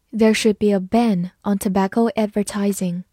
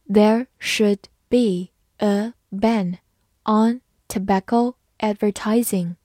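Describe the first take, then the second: First: Said in the usual way. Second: Slow, word-by-word model reading. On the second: Shown as a demonstration. English teacher modelling the tobacco sentence for learners, slowly. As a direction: read it slowly with gaps between words. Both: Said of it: "慢慢来读".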